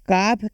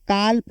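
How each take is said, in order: First: The word is said with no L sound. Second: The word is said with an L sound. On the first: The speaker calls it right. "काफ के बजाय" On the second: The speaker calls it wrong. "काल्फ मत पढ़ना"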